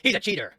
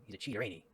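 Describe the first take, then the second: First: Loud, high, laughing yell; laughing shout. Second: Said in the usual way. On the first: Real, not acted. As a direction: burst out laughing as you shout it. Laughing shout at own joke.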